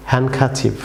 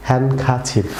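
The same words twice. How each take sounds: The two takes are said the same way.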